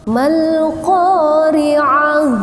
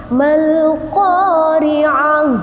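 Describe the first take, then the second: The two takes are said the same way.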